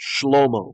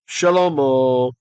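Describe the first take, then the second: First: No vowel is heard between sh and l. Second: A short vowel is heard between sh and l.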